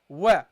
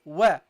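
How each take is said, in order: No difference in how they are said.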